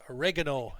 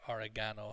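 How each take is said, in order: First: It is said with an American pronunciation. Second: It is said with a European pronunciation. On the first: "in the U S" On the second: "in Europe"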